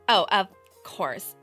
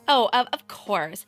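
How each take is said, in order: First: It is said in a sassy tone. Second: It is said in a meek, flustered tone.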